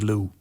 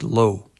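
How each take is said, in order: First: The vowel sounds like 'oo'. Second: The vowel sounds like 'oh'. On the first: The speaker calls it wrong. "If you want to sound stupid, just say Lou" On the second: The speaker calls it right. "it's pronounced like Lo"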